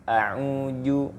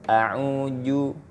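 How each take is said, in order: No difference in how they are said.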